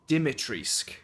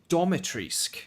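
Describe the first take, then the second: First: The first vowel is an I sound. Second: The first vowel is an O sound. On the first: "I think it's Dimitrisk" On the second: "I've also heard Domitrisk, an O sound"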